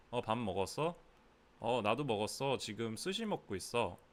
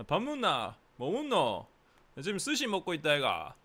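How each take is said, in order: First: Standard Seoul Korean at an easy level; casual chat in Seoul accent. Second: High, loud Busan accent; Busan dialect. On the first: Tutor shows meal small talk as in Seoul, Seoul accent. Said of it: "This would be like Seoul". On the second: Tutor shows meal small talk in Busan, loud Busan accent. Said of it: "In Busan, it would be like". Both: Shown as a demonstration.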